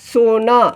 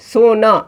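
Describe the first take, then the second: The two takes are said the same way.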